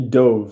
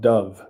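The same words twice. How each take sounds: First: The word rhymes with stove. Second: The word rhymes with love. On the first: This is the past tense of dive. The speaker calls it right. "I want this to be dove" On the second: This is the name of the bird. The speaker calls it wrong. "not dove"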